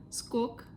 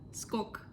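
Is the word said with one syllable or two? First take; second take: one; one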